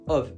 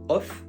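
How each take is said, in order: First: The word ends with a V sound. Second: The word ends with an F sound. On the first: The speaker calls it right. "avec un V à la fin" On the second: The speaker calls it wrong. "on va pas dire off"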